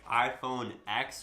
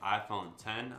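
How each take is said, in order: First: The last word is the letter name X. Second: The last word is the number ten. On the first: "I like saying X. It has a much like cooler tone to it" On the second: "you're supposed to pronounce it ten"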